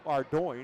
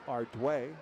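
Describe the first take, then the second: First: The name ends with an 'oin' sound. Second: The name ends with a 'way' sound. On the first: This is how the spelling looks. The speaker calls it wrong. "what looks like Ardoin" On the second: This is the French pronunciation of the name. The speaker calls it right. "but it's Ardway"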